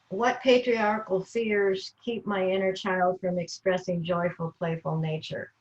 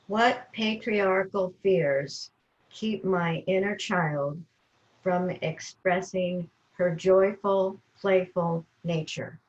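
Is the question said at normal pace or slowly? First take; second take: normal pace; slowly. First: It is said at a normal pace. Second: It is said very slowly.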